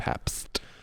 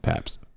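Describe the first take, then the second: First: The T sound at the end is pronounced. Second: The T sound at the end is dropped. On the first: The speaker calls it right. "Pronouncing it properly now" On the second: The speaker calls it wrong. "Not pronouncing the T there"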